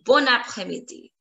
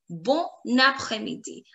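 First: It is said in one go without a pause. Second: It is said with a pause between words.

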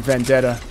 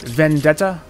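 First: The word is said in a relaxed, casual way. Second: Every sound of the word is carefully over-articulated. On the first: "Where I grew up, we just say Vendetta" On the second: "Or you could over-enunciate Vendetta"

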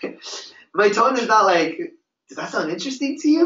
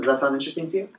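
First: The question is asked in an excited, hyped tone. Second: The question is asked in a calm, relaxed tone. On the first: It sounds like a forced sales pitch. The speaker calls it wrong. "My tone is not like" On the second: It sounds like a real, natural conversation. The speaker calls it right. "listen to my tone"

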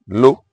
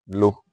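First: The word is said on a high tone. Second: The word is said on a mid tone. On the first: It means salt. "Low with a high tone means salt" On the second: It means that. "low with a mid tone means that"

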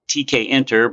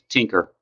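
First: The letters T and K are said separately. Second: The start is blended into one syllable. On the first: The speaker calls it right. "should be called Tkinter" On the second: The speaker calls it wrong. "commonly mispronounced Tinker"

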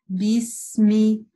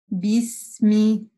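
No difference in how they are said.

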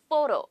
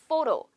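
The two takes are said the same way.

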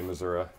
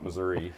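First: It is pronounced in the Southern Iowa way. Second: It is pronounced in a non-Southern-Iowa way. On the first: This is how people from that region say it. "I was raised in Southern Iowa, so I say Missouri" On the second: This is how people elsewhere say it. "not Missouri"

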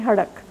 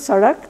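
First: The word begins with an h sound. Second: The word begins with an s sound. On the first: "they say hadak" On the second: "instead of sadak"

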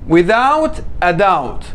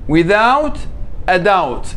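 The two takes are said the same way.

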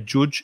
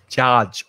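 First: The vowel is not the open 'up' vowel. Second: The vowel is the open 'up' vowel. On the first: The speaker calls it wrong. "Don't say judge" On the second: The speaker calls it right. "It's judge. Open your mouth. The same sound as up"

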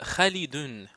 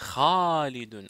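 First: The first vowel after Kh is short. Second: The first vowel after Kh is lengthened. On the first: "si j'avais écrit comme ça. Là, je vais dire Khalidun" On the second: "quand on ajoute Al-Alif, on dit Khalidun"

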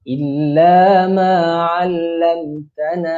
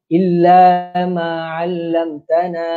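First: The final vowel is held only briefly. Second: The final vowel is stretched out long. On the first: The speaker calls it right. "madai illa ma'allamtana. Dua harakat" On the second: The speaker calls it wrong. "na tu tak perlu panjang pada empat harakat tau. ... Tak boleh"

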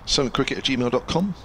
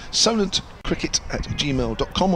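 First: The address is spoken at a fast pace. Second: The address is spoken at a slow pace. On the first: "I said that quickly" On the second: "I'll say it slowly"

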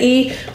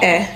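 First: The vowel is a long 'ee' sound. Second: The vowel is a short 'eh' sound. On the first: This is the long sound of the letter. "Sometimes this does say E" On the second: This is the short sound of the letter. "but when it's short, it says E"

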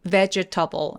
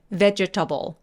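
The two takes are said the same way.

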